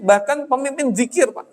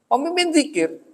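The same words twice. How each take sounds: First: Said in the usual way. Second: Pemimpin lifted high and stressed, zikir falling; emphatic repeat. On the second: Shown as a demonstration. Preacher stresses to the congregation that he even led zikir, emphatic. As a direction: lean hard on Pemimpin zikir, incredulous.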